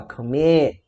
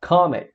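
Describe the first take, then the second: First: Commit with the weight moved to MIT; stress on the last syllable. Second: Commit with the weight on COM; wrong first-syllable stress. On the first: Teacher showing what we do say, commit stressed on MIT. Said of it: "a gente fala commit". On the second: Teacher showing what we don't say, commit stressed on COM. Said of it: "a gente não fala commit". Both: Shown as a demonstration.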